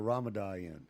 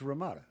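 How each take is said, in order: First: The word ends with an added n sound. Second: The word ends in a vowel, no n. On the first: Someone else mispronounced it this way. The speaker calls it wrong. "he called it the Ramadan" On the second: This is the real name. The speaker calls it right. "It's Ramada"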